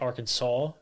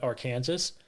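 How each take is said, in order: First: The word ends with a 'saw' sound. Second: The word ends with a 'sas' sound. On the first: "I refuse to say Arkansas" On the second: "I call it Arkansas"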